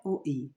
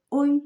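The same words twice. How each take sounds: First: "O, I" as two separate vowels; letter by letter. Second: "Oi" as one syllable, higher; blended reading. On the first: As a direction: keep "O" and "I" apart, the wrong reading. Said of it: "Não, J P, não é". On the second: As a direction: glide O into I in a single "Oi". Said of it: "não é "O, I", é "Oi". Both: Shown as a demonstration.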